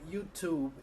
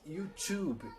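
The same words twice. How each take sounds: First: The t in tube is a plain t. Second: The t in tube sounds close to ch. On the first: This is the American way of saying it. "os americanos falam YouTube" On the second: This is the Irish way of saying it. "no inglês e irlandês, essa pronúncia vai ser mais com um C H no lugar do T"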